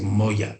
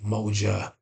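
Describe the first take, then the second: First: The middle consonant is a Y sound. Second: The middle consonant is a J sound. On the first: "in Kenya, they might say moya is more uh, Y than a J sound" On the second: "when you have the sound J, like moja"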